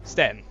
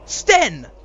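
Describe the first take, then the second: First: It is said blankly, with flat energy. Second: It is said eagerly, with lively energy.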